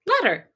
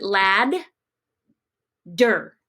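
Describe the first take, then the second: First: Said in the usual way. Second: Lad, long pause, der; separated syllables. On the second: Shown as a demonstration. Teacher showing where ladder splits, syllables far apart. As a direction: break ladder into LAD and DER with a clear gap. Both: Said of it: "would be separated like this".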